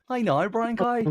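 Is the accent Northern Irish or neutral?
Northern Irish. It is said in a Northern Irish accent.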